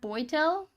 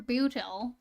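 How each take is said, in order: First: The surname's first vowel sounds like 'oy'. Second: The surname's first vowel sounds like 'oo'. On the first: The speaker calls it right. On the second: The speaker calls it wrong.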